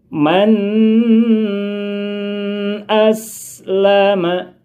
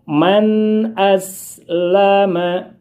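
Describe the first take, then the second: First: The n sound in man is held long. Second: The n sound in man is kept short. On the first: The speaker calls it wrong. "tidak boleh kita membaca panjang seperti ini" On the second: The speaker calls it right. "dibaca pendek saja"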